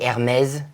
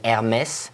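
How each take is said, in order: First: The word ends with a z sound. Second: The word ends without a z sound. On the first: The speaker calls it wrong. "don't say Hermès, you don't have a Z" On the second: The speaker calls it right. "you have an accent on the E"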